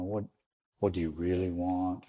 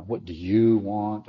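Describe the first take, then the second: First: "really" leaned on, gently probing; stress on really. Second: "you" stressed, said slowly; slow "What do you want?" leaning on "you". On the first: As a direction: ask "what do you really want" as a searching question. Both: Shown as a demonstration. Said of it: "you could inflect that in different ways".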